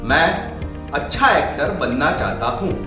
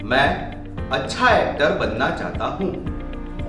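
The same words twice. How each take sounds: First: It is spoken at the highest volume. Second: It is spoken at a raised volume. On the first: "और volume बढ़ाकर" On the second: "volume बढ़ाकर"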